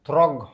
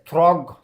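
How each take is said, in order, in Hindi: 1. शब्द का अंत कठोर G की ध्वनि से होता है। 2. शब्द का अंत कठोर G की ध्वनि से होता है।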